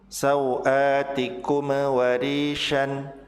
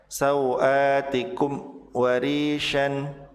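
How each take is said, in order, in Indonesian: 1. Mim dibaca dengan gema memantul. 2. Ada jeda setelah mim. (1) "Tidak boleh dibaca memantul" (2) "Atau ada jeda"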